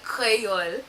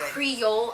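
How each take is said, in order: First: It is pronounced with a Haitian accent. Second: It is pronounced with an American accent. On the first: The speaker calls it right. "I say" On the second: The speaker calls it wrong. "I don't say"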